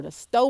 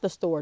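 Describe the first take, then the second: First: "store" said as "stoh", the final R dropped; "store" without the R. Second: Said in the usual way. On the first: Shown as a demonstration. Correcting herself to viewers, "store" pronounced "stoh". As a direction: drop the R in "store" so it ends on a long O. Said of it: "not the store, the store". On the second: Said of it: "the store with no mask".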